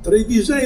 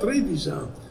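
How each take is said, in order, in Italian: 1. L'accento cade sull'ultima sillaba. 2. L'accento cade sulla prima sillaba. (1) "da sempre si pronuncia con l'accento interultima"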